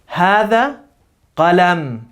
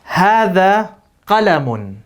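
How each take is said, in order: First: The last word ends without an added n sound. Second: The last word ends with an added n sound.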